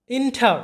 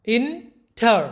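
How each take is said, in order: First: Said in the usual way. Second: "inter" in two separate beats, ইন, টার; split into syllables. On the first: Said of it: "এই শব্দের মধ্যে কয়টা syllable আছে". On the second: Shown as a demonstration. Teacher showing students two syllables, "inter" broken in two. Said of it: "এটাকে দুইবারে উচ্চারণ করতে হয়".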